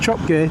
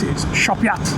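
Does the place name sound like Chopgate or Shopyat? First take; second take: Chopgate; Shopyat. First: It begins with ch and ends with gate. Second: It begins with sh and ends with yat. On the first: The speaker calls it wrong. "it's not called Chopgate" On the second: The speaker calls it right. "it's Shopyat"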